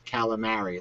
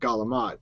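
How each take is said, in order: First: It is said with the full standard ending. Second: It is said with a clipped Italian-American ending. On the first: This is said so outsiders understand. "I have to say that calamari like that for them" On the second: This is how it is said at home. "So it would be like galamat"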